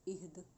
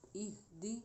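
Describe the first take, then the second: First: The word ends on a closed consonant. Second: The word ends with an open vowel.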